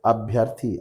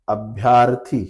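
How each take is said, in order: First: अभ्यर्थी with short अ after भ्य; अभ्यर्थी as the teacher's right answer; correct form. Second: अभ्यार्थी with long आ after भ्य; अभ्यार्थी, shown as the common mistake; wrong form. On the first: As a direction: say अभ्यर्थी, short vowel, a touch lower. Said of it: "सही क्या होता है". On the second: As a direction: say अभ्यार्थी stretching the आ. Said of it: "अभ्यार्थी शब्द गलत है". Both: Shown as a demonstration.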